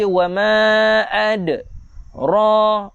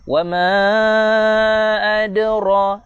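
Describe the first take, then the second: First: The voice stops after 'ad' before saying 'ra'. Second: The word flows on with only a slight bounce. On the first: The speaker calls it wrong. "Ra salah ala berhenti dah jadi qalqalah lain. Tak nak macam tu" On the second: The speaker calls it right. "Kecil lantunan dia"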